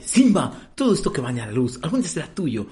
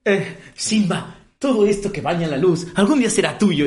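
First: A hint of the actor's solemn tone, near normal pace; lightly voiced Mufasa. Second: Slow, higher, booming mock Mufasa line; imitating Mufasa actor. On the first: Friend repeats the Mufasa line, a light hint of the role. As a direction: quote the king's line almost plainly. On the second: Retelling the musical to friends, slow grand mock Mufasa. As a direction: ham up the king's grand speech to his son. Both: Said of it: "Habla con este tono".

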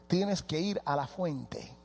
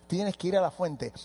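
First: Slow and soft. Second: Said in the usual way. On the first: Shown as a demonstration.

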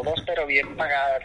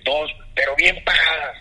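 First: Retold doubtful echo. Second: "Dos, pero bien pagadas" higher and louder; retold emphatic pitch. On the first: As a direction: echo the offer back, mildly sceptical. Echoes Alex's offer back, doubting it. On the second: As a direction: push "bien pagadas" hard as the selling point. Retells Alex's selling pitch.

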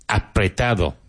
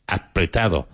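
The two takes are said the same way.

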